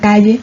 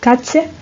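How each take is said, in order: First: The middle consonant is a soft fricative. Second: The middle consonant is a tense affricate. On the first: This is the pronunciation of the seseo areas. "que se pronunciaría en la zona del ceseo" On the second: This is the pronunciation of the ceceo areas. "se pronuncia mucho más africada y más tensa"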